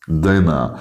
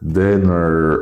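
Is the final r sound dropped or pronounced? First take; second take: dropped; pronounced. First: The final r sound is dropped. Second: The final r sound is pronounced.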